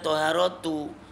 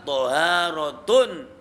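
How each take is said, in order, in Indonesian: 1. Kata itu berakhir dengan vokal 'u' biasa. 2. Kata itu berakhir dengan 'un' dengan tanwin. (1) "maka tidak dibaca toharotu" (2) "maka toharotun"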